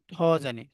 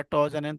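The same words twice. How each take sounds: First: ঠ said with a puff of air; aspirated ঠ. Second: ট said without a puff of air; unaspirated ট. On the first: Teacher giving the class the correct letter sound, aspirated ঠ. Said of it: "যারা ট জানেন তারা ভুল জানেন". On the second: Teacher citing the mistaken letter sound, unaspirated ট. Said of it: "তারা ভুল জানেন". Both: Shown as a demonstration.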